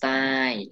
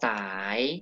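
First: The syllable has a falling tone. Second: The syllable has a rising tone.

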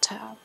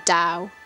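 First: The word begins with a T sound. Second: The word begins with a D sound. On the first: The speaker calls it wrong. "It's not Tao" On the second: The speaker calls it right. "I think it might be Dao"

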